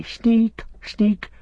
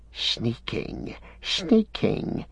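First: Sneak sneak squeaked very high and mocking; mocking quote. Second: Hissed. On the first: Gollum mimicking the hobbits' insult, shrill mockery. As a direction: parody the hobbits in a shrill taunt. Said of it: "and they say". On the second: A narrator's reading. Gollum stung by Sam's insult, hissing. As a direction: spit the word sneaking like a hiss. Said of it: "he hissed".

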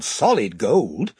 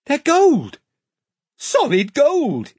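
First: Slow, thoughtful weighing of the words; drawn-out musing on solid gold; pondering. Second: Higher, louder burst of alarm; excited. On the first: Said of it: "Edmund reasons it out". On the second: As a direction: blurt solid gold out, high and urgent. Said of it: "interrupted Edmund". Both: Acted.

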